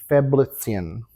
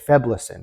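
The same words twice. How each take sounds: First: It is said in a fussier, more elaborate way. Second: It is said in a plain, everyday way. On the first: This is the technically correct form. "technically, it should be Feblicin, which is like really pretentious" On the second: This is what everyone actually says. "you just say Feblicin"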